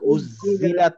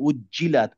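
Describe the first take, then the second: First: The doubled middle consonant sounds like z. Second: The doubled middle consonant sounds like j. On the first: The speaker calls it wrong. "উজ্জিলাত না" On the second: The speaker calls it right. "বর্গি জ"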